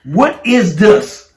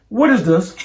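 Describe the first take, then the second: First: Very slow, drawn-out mock demand; mocking wife. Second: Lightly mocking imitation of a demanding question; mocking wife. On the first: Husband imitating his wife confronting him, slow and mocking. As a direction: mimic her, stretching out every word. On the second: Husband imitating his wife coming straight to him, lightly mocking. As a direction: mildly mimic her confronting you. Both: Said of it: "Are you, are you mocking me?".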